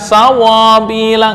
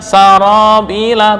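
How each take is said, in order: First: The r has no tap at all. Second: The r is a single light tap. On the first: The speaker calls it wrong. "bukan sawabila, enggak" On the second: The speaker calls it right. "Mana praktek getaran satu?"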